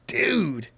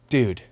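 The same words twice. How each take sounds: First: It is said in an impressed, excited tone. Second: It is said in a sympathetic, consoling tone. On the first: Something great just happened to him. "he just got like the hottest girlfriend, or he got a sweet new car" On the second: I'm sorry about what happened to you. "it means things like, hey man, I'm really sorry about that thing that happened"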